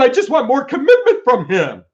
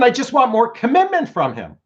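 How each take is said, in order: First: It is said louder, almost shouted. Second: It is said at a moderate volume.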